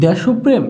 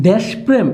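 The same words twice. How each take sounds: First: দেশপ্রেম as "desho-prem", higher; linking o. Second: দেশপ্রেম as "desh-prem", higher; no vowel between শ and প in দেশপ্রেম; no linking o. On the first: Teacher offers students a first option, দেশপ্রেম with linking o. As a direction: join দেশ to প্রেম with an o. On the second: Teacher offers students a second option, দেশপ্রেম without linking o. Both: Shown as a demonstration. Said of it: "উচ্চারণ কি হবে".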